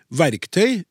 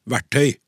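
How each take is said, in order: First: Said in the usual way. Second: "verktøy" said as verttøy, k dropped; common mispronunciation. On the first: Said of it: "alle uttaler feil". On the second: Shown as a demonstration. Host reads listener's example, "verktøy" losing its k. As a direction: say "verktøy" without its k. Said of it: "uttales ofte verktøy".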